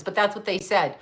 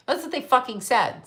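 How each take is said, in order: First: Said in the usual way. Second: That's and fucking pushed harder, pitch lifted; emphatic repeat. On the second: Real, not acted.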